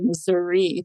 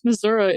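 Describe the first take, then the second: First: The word ends in a clear 'ee' sound. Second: The word ends in a relaxed 'uh' sound. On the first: This is how people in the northern part and the big cities say it. "If you're above I seventy or you're in Kansas City or Saint Louis, those people say" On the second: This is how people in the southern part of the state say it. "if you are below I seventy and you're close to the Arkansas border"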